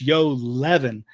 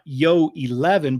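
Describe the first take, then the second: First: The first vowel of eleven is dropped. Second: The first vowel of eleven is fully pronounced. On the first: The speaker calls it right. "They don't they don't even say the E" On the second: The speaker calls it wrong. "it's not yo eleven"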